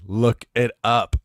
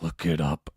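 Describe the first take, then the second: First: It is said in a normal voice. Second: It is said in a gravelly Batman voice.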